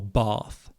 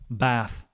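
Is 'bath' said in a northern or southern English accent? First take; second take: southern; northern. First: It is said in a southern English accent. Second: It is said in a northern English accent. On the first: "I say grass or bath" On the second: "She says grass, bath"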